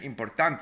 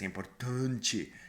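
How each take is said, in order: First: It is said with a Spanish pronunciation. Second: It is said with a Brazilian Portuguese pronunciation. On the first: "in Spanish, everything is kind of clear" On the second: "in Brazilian, it's importante"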